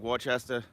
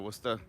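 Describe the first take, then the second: First: Every written syllable of the name is pronounced. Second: The name is shortened, with syllables dropped. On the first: It follows the written sign. "Read it how the sign says it" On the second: It is the usual local way. "instead of"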